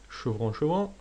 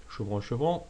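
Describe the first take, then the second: No difference in how they are said.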